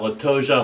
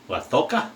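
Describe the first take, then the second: First: It uses the usual non-Castilian pronunciation. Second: It uses the Castilian Spanish pronunciation. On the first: This is how the shaving community says it. "But we call it La Toja" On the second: This is how people in Madrid say it. "people who have been in Madrid and confirmed it say it's La Toca"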